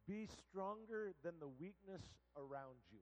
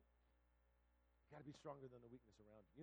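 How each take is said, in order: First: "Be stronger" said slowly, in full voice; "stronger" drawn out firmly; emphatic lesson. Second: "be stronger" low, soft and slow; quiet, weighty "stronger than the weakness"; hushed repeat. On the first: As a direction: proclaim "Be stronger" as the key point. First take of the sermon's lesson. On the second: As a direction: drop down to press home "be stronger". Lesson repeated softly for weight. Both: Real, not acted.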